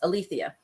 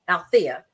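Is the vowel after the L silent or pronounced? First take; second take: pronounced; silent. First: The vowel after the L is pronounced. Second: The vowel after the L is silent. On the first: This is how the spelling might suggest saying it. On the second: This is how the name is actually said. "pronounced it Althea"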